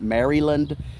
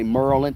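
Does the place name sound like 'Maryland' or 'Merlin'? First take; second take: Maryland; Merlin. First: The name is said fully, as 'Maryland'. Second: The name is clipped, sounding like 'Merlin'. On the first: "not Maryland" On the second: "I say Merlin"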